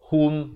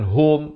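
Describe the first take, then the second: First: The vowel is a rounded u sound. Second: The vowel is an open o sound. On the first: The speaker calls it right. "baris dhammah bunyi hu" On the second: The speaker calls it wrong. "bukannya bunyi ho"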